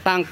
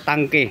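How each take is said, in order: First: The word ends on a consonant sound. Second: The word ends on an added vowel sound. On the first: The speaker calls it wrong. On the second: The speaker calls it right.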